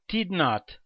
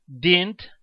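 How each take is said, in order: First: "did not" as two separate words; full form. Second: "didn't" run together as one word; contracted form. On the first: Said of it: "Em vez de você falar". (forma completa "did not", sem contração) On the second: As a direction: shorten it to "didn't", no full "not". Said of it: "usaremos as contrações verbais". (forma contraída "didn't", numa palavra só) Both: Shown as a demonstration.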